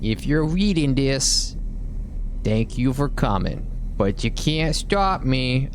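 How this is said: It is read in a put-on New York accent.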